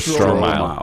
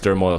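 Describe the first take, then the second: First: The name is said like 'stro-mile'. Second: The name is said like 'stur-moil'. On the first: This is how it reads from the spelling. "It's S T R O M I L E. So Stromile" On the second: This is how it was heard in broadcasts. "it was always Sturmoil Swift. That's how they pronounced it"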